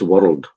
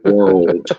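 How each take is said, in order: First: The word is said with a Glaswegian accent. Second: The word is said with an American accent. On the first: "so set on my tongue as world" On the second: "instead of world"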